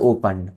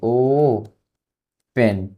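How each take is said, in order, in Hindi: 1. दूसरा अक्षर हल्का होता है, 'pun' जैसा। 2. दूसरा अक्षर 'pen' जैसा सुनाई देता है। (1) "इसका ओपन बोलते हैं" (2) "ऐसे पढ़ेंगे ओ पेन, ये सही प्रोनाउंसिएशन नहीं है इसका"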